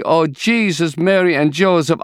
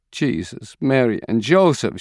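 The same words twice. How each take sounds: First: Screaming in grief. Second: A touch of a grieving cry; mild lament rising on Joseph. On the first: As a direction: cry it out in anguish. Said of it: "She screams". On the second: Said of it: "she cries". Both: A narrator's reading.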